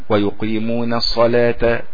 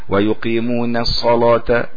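Both takes have the same delivery.

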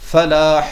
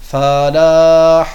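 First: The vowel after the F is short. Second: The vowel after the F is lengthened. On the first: The speaker calls it right. "weil es heißt Falah" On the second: The speaker calls it wrong. "wenn sie das in die Länge ziehen ... das ist falsch"

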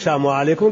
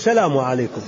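First: The L sound in the greeting is swallowed. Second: The L sound in the greeting is clearly pronounced. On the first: The speaker calls it wrong. "ما تقول سلام عليكم" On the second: The speaker calls it right. "قل سلام عليكم. ... يعني اللام هذه ما تبلعها"

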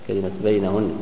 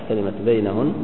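No difference in how they are said.

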